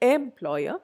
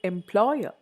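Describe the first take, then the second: First: The stress is not on the second syllable. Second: The stress is on the second syllable. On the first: The speaker calls it wrong. "I don't say employer" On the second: The speaker calls it right. "Second syllable"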